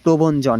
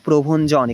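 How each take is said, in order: First: The middle consonant is a plain b sound. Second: The middle consonant is an aspirated bh sound. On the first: The speaker calls it wrong. "প্রবঞ্জন না" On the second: The speaker calls it right. "এখানে ভ হবে"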